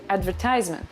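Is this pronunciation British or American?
American. It is said with an American pronunciation.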